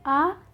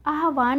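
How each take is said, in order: First: आवाहन syllable by syllable; आवाहन, v before h, spaced out; correct form, spelled out. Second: आह्वान as "ah-vān"; आह्वान run together as āh-vān; wrong form shown. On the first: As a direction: say आवाहन as ā... vā... ha... na with gaps. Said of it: "यहाँ पे ह आधा". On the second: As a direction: say आह्वान with h before v. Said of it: "नहीं होता है". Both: Shown as a demonstration.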